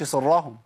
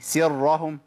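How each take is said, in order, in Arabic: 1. صوت السين ثقيل ومفخّم. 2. صوت السين خفيف ورقيق. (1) "ما قلتش سرهم، سرهم ايه؟ ... بدلت السين بايه؟ بصاد" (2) "سي سرهم"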